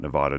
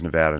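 First: The middle syllable has an 'aw' sound. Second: The middle syllable has no 'aw' sound. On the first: The speaker calls it wrong. "not Nevada. Don't put a W in there" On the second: The speaker calls it right. "And it is Nevada"

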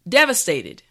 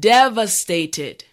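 First: The word is said at normal speed. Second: The word is said slowly.

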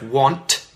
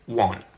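First: The final T sound is clearly pronounced. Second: The final T sound is dropped. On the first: "instead of want" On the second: "the T at the end of words that end with an NT, the T disappears"

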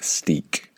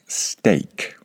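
First: The vowel is a long 'ee' sound. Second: The vowel is an 'ay' sound. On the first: The speaker calls it wrong. "it is not pronounced steak" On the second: The speaker calls it right. "It is pronounced steak"

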